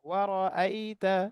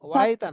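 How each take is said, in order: First: A firm glottal catch separates the two vowels. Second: The syllables run together without a glottal catch. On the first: The speaker calls it right. "হামজাটা শক্ত হবে" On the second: The speaker calls it wrong. "ওয়ারাইতা না"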